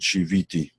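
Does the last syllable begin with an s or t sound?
t. The last syllable begins with a t sound. "Middle Eastern descent should pronounce, would pronounce it Shiviti"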